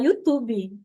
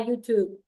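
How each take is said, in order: First: It is said with a Brazilian Portuguese accent. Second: It is said with an English accent. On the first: The speaker calls it right. "mas é mais bonito falar" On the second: The speaker calls it wrong. "A gente pode até falar"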